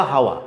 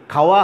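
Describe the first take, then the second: First: হাওয়া with plain h replacing kh; pron. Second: খাওয়া with a clear kh; crisp aspirated kh in খাওয়া; pron. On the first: Teacher contrasting kh sound, h version হাওয়া. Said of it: "এই যে খাওয়া, হাওয়া". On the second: Teacher contrasting kh sound, clear খাওয়া. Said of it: "এই যে খাওয়া". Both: Shown as a demonstration.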